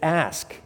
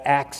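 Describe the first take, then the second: First: The word ends with an sk sound. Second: The word ends with a ks sound. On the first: The speaker calls it right. "But it's ask, A-S-K" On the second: The speaker calls it wrong. "people will pronounce ask with ax. I ax them, A-X"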